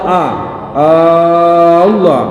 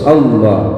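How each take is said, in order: First: The opening vowel is drawn out long. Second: The opening vowel is kept short. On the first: The speaker calls it wrong. "jangan memanjangkan hamzah jalalah ... tidak ada boleh" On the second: The speaker calls it right. "jadi harus Allah"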